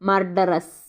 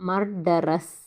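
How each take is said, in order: No difference in how they are said.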